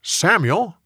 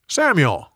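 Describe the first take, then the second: First: High, rising call of the name; divine calling voice. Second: High call of "Samuel" that falls away at the end; divine call, falling. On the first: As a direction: call "Samuel" upward like a voice from afar. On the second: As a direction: let the second "Samuel" settle down firmly. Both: A narrator's reading. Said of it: "the Lord called out".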